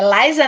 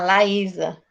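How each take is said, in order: First: The name is said as two syllables, Liza. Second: The name is said as three syllables, La-í-sa. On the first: The speaker calls it wrong. "É Liza, né, que pronuncia, tá certo? Não" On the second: The speaker calls it right. "Ah, Laísa"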